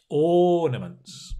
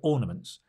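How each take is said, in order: First: The word is said with big, exaggerated mouth movements. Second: The word is said flatly with little mouth movement. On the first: The speaker calls it right. "really do go and exaggerate" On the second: The speaker calls it wrong. "Don't go ornaments"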